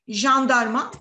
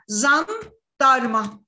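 First: The word begins with a 'j' sound. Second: The word begins with a 'z' sound. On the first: This is how it should be said. The speaker calls it right. "O halde demesi gereken şey bu" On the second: A child with an articulation disorder says it this way. The speaker calls it wrong. "jandarma diyecek çocuk şöyle söylüyor arkadaşlar"

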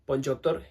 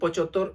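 First: The first syllable has a nasal sound. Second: The first syllable has no nasal sound. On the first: "പൊഞ്ചോത്തോർ എന്നാണ് ശരിയായ അതിൻ്റെ ഒരു ഉച്ചാരണം" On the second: "കൃത്യമായിട്ട് പറയാൻ പറ്റുന്നില്ലെങ്കിൽ നമുക്ക് പൊച്ചോത്തോർ എന്ന് വേണമെങ്കിലും"

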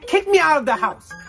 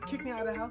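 First: It is said loudly. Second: It is said quietly.

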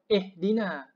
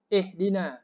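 No difference in how they are said.

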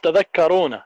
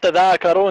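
First: The vowels in the word are kept short. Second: A vowel in the word is drawn out long. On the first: The speaker calls it right. "it's tadhakkarun" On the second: The speaker calls it wrong. "it's not tadhakkarun"

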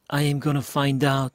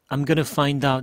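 First: The words 'I am' are said in full. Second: The words 'I am' are contracted to 'I'm'. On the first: "I am gonna 이렇게 발음했죠?" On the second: "이번에는 I'm gonna라고 약간 줄였습니다"

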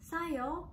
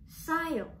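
First: The first s sound is soft and plain. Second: The first s sound is pressed and tense. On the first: "yang S-nya satu" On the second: "yang S-nya dua jadi sayo"

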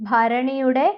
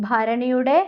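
No difference in how they are said.

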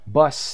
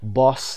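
First: The vowel is short, as in cup. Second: The vowel is long and drawn out. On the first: The speaker calls it right. "ببینید با آی کوتاه آورده" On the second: The speaker calls it wrong. "با آی کشیده و بلند نیست"

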